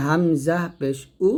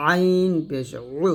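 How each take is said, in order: First: হামজা পেশ উ with unpressed উ from throat's start; hamza from throat's start. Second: আইন পেশ উ squeezed from mid-throat; pressed ain. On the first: Teacher contrasts hamza with ain, unpressed উ. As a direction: release উ cleanly, no squeeze. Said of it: "গলার শুরু থেকে নিয়ে আসবো". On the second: Teacher gives ain against hamza, throat-pressed আইন. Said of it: "চাপ দিয়ে". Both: Shown as a demonstration.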